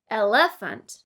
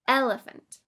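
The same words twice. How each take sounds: First: The stress falls on a later syllable. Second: The stress falls on the first syllable. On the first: The speaker calls it wrong. "It would be incorrect to say" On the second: The speaker calls it right. "with the stress on the first syllable"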